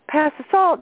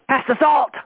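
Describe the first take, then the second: First: The tone sounds calm and warm. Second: The tone sounds angry and harsh. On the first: The speaker feels affectionate. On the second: The speaker is annoyed.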